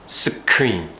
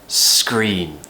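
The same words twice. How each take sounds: First: The opening consonants are said as separate sounds. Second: The opening consonants blend into one sound. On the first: The speaker calls it wrong. "lots of things that I hear from my students are scream" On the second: The speaker calls it right. "we need to treat all of this like one sound"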